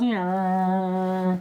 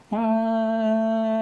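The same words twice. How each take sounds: First: Passing-vehicle noise. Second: Loud, high, steady "aah" drone; approaching-vehicle noise. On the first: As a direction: imitate a train's pitch falling as it passes. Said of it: "when it passes you". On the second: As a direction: imitate an oncoming train's high held tone. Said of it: "the sound that you hear is". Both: Shown as a demonstration.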